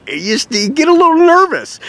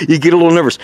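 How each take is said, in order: First: High, jittery imitation of a nervous buyer; mock nervous squeak. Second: Said in the usual way. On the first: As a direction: squeak it out like a worried customer. Customer nervous about wiring money.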